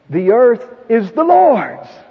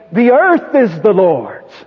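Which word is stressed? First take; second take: Lord's; earth. First: The word "Lord's" carries the main stress. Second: The word "earth" carries the main stress. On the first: It belongs to God and to no one else. "It doesn't belong to anyone else" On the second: Everything in the world, nothing excepted, belongs to God. "That is, everything in the earth"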